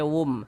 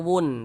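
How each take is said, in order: First: The syllable ends with an m sound. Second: The syllable ends with an n sound. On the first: The speaker calls it right. "tapi dibaca wum" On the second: The speaker calls it wrong. "Jangan dibaca wun"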